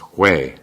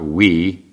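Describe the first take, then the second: First: It does not sound like the English 'we'. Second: It sounds like the English word 'we'. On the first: The speaker calls it right. "I'm told is pronounced Hui" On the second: The speaker calls it wrong. "It's not we as you'd think"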